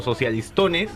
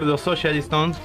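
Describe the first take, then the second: First: The title is pronounced with Spanish sounds. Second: The title is pronounced with English sounds. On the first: It is a kind of mockery. "una especie de burla" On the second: It sounds like the name of a rock band. "es en inglés"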